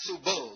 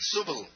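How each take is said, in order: First: The second vowel is long, like 'bull'. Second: The second vowel is short. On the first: The speaker calls it wrong. "Not subul. Don't say bull" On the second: The speaker calls it right.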